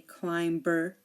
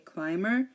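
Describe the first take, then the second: First: The B in the middle is pronounced. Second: The B in the middle is silent. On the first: The speaker calls it wrong. "We do not say climber" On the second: The speaker calls it right. "we say climber"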